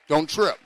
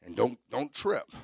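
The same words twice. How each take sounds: First: "Don't trip" punched out loud and high; stress on trip. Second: Said in the usual way. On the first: Shown as a demonstration. Preacher warning the congregation, repeated loud and emphatic. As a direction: hit the word "trip" hard and loud.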